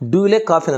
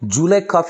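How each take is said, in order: First: The words 'do you' are said in full. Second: The words 'do you' blend into 'ju'.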